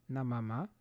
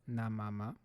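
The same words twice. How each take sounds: Both takes have the same delivery.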